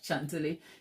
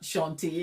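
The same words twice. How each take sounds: First: It is said with an English pronunciation. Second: It is said with a French pronunciation.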